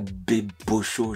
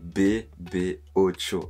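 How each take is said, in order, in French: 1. Il se prononce en trois syllabes. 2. Il se prononce en quatre syllabes. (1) "c'est pas Bébocho" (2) "C'est bébé Ocho"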